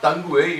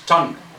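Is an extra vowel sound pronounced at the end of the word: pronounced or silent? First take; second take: pronounced; silent. First: An extra vowel is sounded after the final consonant. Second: The word ends on the consonant with no extra vowel. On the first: The speaker calls it wrong. "it is not tongue way" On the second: The speaker calls it right. "it is tongue. The U and E are silent"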